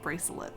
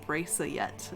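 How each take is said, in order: First: The word is said with a normal L sound. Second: The L sound is replaced by a Y sound. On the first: This is the normal adult form. "instead of" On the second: This is how a small child said it. "I used to say Y for the letter L"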